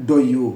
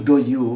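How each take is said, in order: No difference in how they are said.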